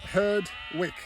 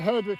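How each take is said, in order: First: The word is said slowly and carefully. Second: The word is said at a normal conversational pace.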